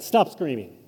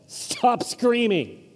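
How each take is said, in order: First: Said in the usual way. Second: Very slow and higher, gently pleading for calm; drawn-out angel hush. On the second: Retold or imitated. Angel calming the screaming shepherds, very slow and higher. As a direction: hush them slowly, like calming a scared child. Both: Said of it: "the angel going".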